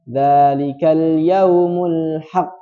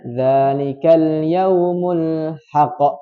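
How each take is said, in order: First: The final q is closed plainly with no bounce. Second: The final q bounces out without being held first. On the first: "tidak diqalqalahkan" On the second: "Jangan dibaca"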